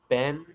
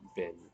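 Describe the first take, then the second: First: The word has the vowel of set. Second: The word has the short vowel of sit. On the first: The speaker calls it wrong. "With the vowel in set" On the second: The speaker calls it right. "with the vowel in sit"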